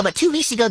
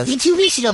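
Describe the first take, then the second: First: Two hit hardest, weeks let go; stress on two. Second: Weeks pushed up and out; stress on weeks. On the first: Setting the record straight, stress on two. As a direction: lean on the word two. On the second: Correcting herself, stress on weeks. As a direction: lean on the word weeks. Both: Shown as a demonstration.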